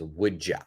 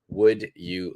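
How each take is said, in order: First: 'Would you' is blended into 'would ya'. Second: 'Would you' is said fully and separately. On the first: "The pronunciation becomes would ya" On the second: "perfect pronunciation"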